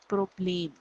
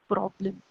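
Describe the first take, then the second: First: It is pronounced as the German word. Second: It is pronounced as the English word. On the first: "but the pronunciation will be Problem" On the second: "one more word uh, that is problem"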